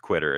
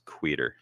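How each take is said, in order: First: The name sounds like the word quitter. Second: The name sounds like Queeter. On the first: The speaker calls it wrong. "It's not it's not pronounced quitter" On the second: The speaker calls it right. "It's pronounced Queeter"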